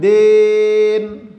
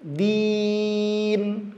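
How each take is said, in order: First: "din" held with i opened to e, like "den"; salah kasroh. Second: "Din" with a long, pure i; kasroh jelas. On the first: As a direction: say a long, loud "den" for "din". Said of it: "Kasrohnya jangan". ("din" dibaca den, kasroh miring) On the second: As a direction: hold a clean ee in "Din". ("Din" dengan i panjang yang jelas) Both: Shown as a demonstration.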